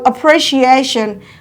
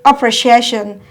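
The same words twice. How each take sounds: First: The second syllable carries a light secondary stress. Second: The second syllable carries no stress at all. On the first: "The second syllable is stressed, receiving a partial force" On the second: "They will jump the secondary stress"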